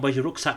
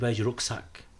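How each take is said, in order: First: It sounds mildly mocking. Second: It sounds very arrogant.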